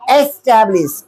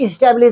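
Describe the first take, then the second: First: The first vowel sounds like "eh". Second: The first vowel sounds like "ih". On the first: The speaker calls it right. "क्या बोलिएगा? एस्टैब्लिश।" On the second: The speaker calls it wrong. "इसको हम लोग generally लोग क्या बोलते हैं? इस्टेब्लिश इस्टेब्लिश बोलते हैं। तो इस्टेब्लिश नहीं बोलिएगा"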